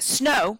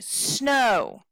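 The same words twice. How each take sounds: First: The word is short and unstressed. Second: The word is long and stressed. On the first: The speaker calls it wrong. "we don't say snow" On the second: The speaker calls it right. "we say snow ... snow is a little longer"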